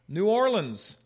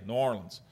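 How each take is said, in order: First: It is said in a general American accent. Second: It is said in a local Louisiana accent.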